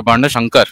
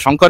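First: বর্ণ সংকর said as barna sangkara with open a vowels; বর্ণ সংকর with sa, not the Bengali sho-ngkor; Sanskrit pronunciation. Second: Said in the usual way. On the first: Shown as a demonstration. Scholar corrects caller, saying বর্ণ সংকর as barna sangkara. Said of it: "এটা সা উচ্চারণ হবে". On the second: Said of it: "সংকর এই যে উচ্চারণটা আমরা করছি".

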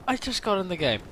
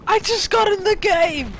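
First: Said in the usual way. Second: High, slow, loud cry of joy; excited shout. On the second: Real, not acted. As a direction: yell it out thrilled. Gamer excited on spawning.

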